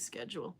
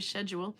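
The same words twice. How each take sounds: First: It is said the American way. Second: It is said the non-American way. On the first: "If you come from United States, you say schedule" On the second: "If you're from Greg's part of the world, you would say schedule"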